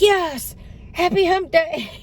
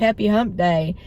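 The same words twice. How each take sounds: First: High, delighted echo of the greeting; a commenter wishes her happy hump day, she echoes it excitedly; excited reply. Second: Said in the usual way. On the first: Retold or imitated. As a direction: answer the greeting with giddy glee. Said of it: "And I'm like". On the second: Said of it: "one gentleman said".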